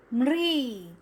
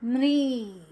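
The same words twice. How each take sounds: First: म्री said clearly with a falling end; म्री pronounced. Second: म्री said again for the class, a bit louder; म्री repeated. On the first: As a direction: model म्री as one syllable. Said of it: "इसका उच्चारण होगा". (म्री का साफ़ उच्चारण) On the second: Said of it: "कैसे होगा?". (म्री दोहराते हुए) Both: Shown as a demonstration.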